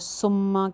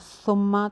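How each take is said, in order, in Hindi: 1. यह सीटी जैसी, फुफकार वाली स की आवाज़ से शुरू होता है। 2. यह नरम थ की आवाज़ से शुरू होता है। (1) "मेजॉरिटी जो है सुम्मा कह रही होती है" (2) "जब हम पढ़ते हैं"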